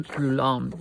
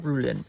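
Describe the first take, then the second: First: "Rouland" said roo-LAND, a wrong first try; "Rouland" tried tentatively, lower; mispronounced name. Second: "Roulin" said roo-LAN, the settled fix; corrected name. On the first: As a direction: stumble on "Rouland" before correcting it. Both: Real, not acted.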